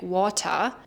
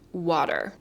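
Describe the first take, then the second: First: The final R sound is dropped. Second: The final R sound is clearly pronounced. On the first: "if you have a German accent, you're probably more inclined to say something like water" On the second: "the R in American English is always pronounced in every position"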